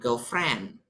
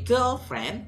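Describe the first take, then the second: First: The stress falls on the part friend. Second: The stress falls on the part girl. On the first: She is just a female friend. "penekanannya di friend" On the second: She is a romantic partner. "penekanannya di girl, jadi girlfriend"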